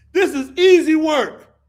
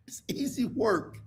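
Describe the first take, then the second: First: Louder, higher proclamation; loud declaration. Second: Voiceless whisper aside. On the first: Comic repeating the line to the crowd, loud declaration. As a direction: announce it boldly. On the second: Comic leaning in to the audience, whisper. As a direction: breathe it as a secret. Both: Pretend.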